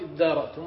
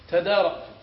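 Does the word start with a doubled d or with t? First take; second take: doubled d; t. First: The t merges into a doubled d sound. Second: The word begins with a separate t sound. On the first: "فأدغمت التاء في الدال وجلب لها همزة وصل فصارت ادارأتم" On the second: "الأصل فيه تدارأتم"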